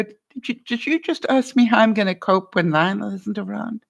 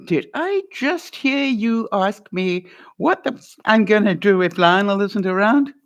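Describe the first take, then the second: First: Sincere, near tears. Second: Challenging, pushing back; a confrontational question that invites a fight; slightly pointed demand for a repeat; pushy wrong way. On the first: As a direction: ask gently, as if moved to tears. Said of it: "I've got tears even thinking about it". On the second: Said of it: "Don't do that". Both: Shown as a demonstration.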